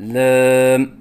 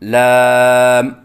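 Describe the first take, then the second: First: The word is said with a closed mouth. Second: The word is said with an open mouth. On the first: The speaker calls it wrong. "मुंह बंद करके पढ़ना" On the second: The speaker calls it right. "सही अदायगी है"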